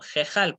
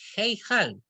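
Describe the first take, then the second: First: The first vowel is a plain e. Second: The first vowel glides like ei. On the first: The speaker calls it right. "sino jejal, porque es una sere yud ... eso se lee como una e" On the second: The speaker calls it wrong. "no es heijal"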